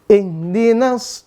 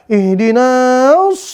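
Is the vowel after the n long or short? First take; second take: short; long. First: The vowel after the n is short. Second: The vowel after the n is drawn out long. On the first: The speaker calls it right. "tidak dibaca panjang" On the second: The speaker calls it wrong. "jangan sampai dibaca ihdinas"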